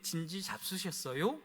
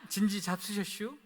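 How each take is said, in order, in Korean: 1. 표준 서울말로 하는 말이에요. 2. 충청도 시골 사투리로 하는 말이에요. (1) "서울말을 못 쓰겠더라고요" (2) "저는 이렇게 전화를 합니다"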